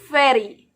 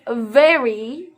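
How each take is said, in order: First: The word begins with an F sound. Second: The word begins with a V sound. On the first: The speaker calls it wrong. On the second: The speaker calls it right.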